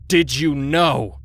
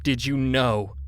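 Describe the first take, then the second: First: Very loud, slow, higher raging yell; furious yell. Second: Loud, rough accusing bark. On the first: Enraged husband screaming at friend against the wall. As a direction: scream the question into his face. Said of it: "scratchy throat emphasizing his words". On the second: Furious husband pinning friend to the wall, barking. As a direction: bark it in his face. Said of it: "he barked". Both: A narrator's reading.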